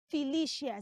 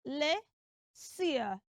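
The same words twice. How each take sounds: First: "Felicia" with shia at the end; wrong pronunciation. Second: "Felicia" slowly as fe-le-sia; syllable by syllable. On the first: Teacher warning children off it, mispronounced "Felicia". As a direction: say "Felicia" using sh for c. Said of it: "So don't say Felicia". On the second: Teacher breaking it down for children, slow correct "Felicia". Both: Shown as a demonstration.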